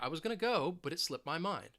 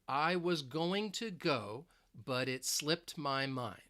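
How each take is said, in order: First: The words are reduced and linked together. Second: Each word is said separately and carefully. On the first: "I'm going to say" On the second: "I'm not going to pronounce the individual words just like that"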